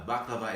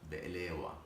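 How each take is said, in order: First: It is said the American way, 'baklava'. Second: It is said the Middle Eastern way, 'be'elewa'. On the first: "baklava is the American way of saying it" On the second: "The Middle Eastern way is be'elewa. Be'elewa, that's how we say it"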